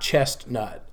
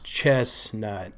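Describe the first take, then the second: First: The middle t sound is clearly pronounced. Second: The middle t sound is left out. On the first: The speaker calls it wrong. "not Chestnut" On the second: The speaker calls it right. "it's pronounced Chestnut"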